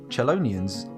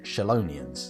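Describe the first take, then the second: First: The word begins with a 'ch' sound, like cello. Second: The word begins with a 'sh' sound, like shells. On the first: "sort of sounds like the people in an orchestra who play cellos" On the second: "I want to pronounce it Shellonians because because of shells"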